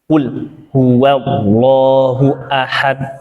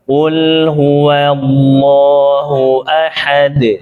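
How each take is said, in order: First: The recitation is stiff and choppy. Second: The recitation is smooth and flowing. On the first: The speaker calls it wrong. "kaku banget itu" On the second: The speaker calls it right. "belajar ngalir ... jadi bagus"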